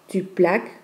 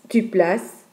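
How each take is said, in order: First: The c is pronounced as a k sound. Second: The c is pronounced as an s sound. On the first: The speaker calls it wrong. "et pas" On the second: The speaker calls it right. "On dit"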